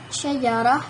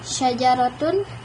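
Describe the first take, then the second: First: The word ends in a soft h sound. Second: The word ends in a t plus vowel ending. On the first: The word stands at a pause. "diucapkan ha'an, ha, sakinatun, ketika ia dalam keadaan sukun" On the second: The word carries a case vowel. "dibaca sebagai ta ma'al harakatis tsalatsa"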